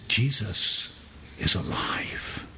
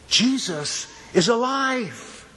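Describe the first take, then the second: First: It is said at normal volume. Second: It is said more loudly.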